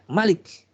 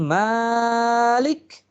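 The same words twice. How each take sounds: First: The first vowel is short. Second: The first vowel is long. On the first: It means the king who reigns. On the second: It means the one who controls and governs.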